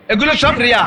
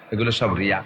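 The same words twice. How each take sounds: First: Said in the usual way. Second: এগুলো সব Riya said much lower and softer, almost under breath; low murmur. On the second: Shown as a demonstration. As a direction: drop the voice deep on এগুলো সব রিয়া. ("এগুলো সব রিয়া" অনেক নিচু স্বরে আস্তে বলা)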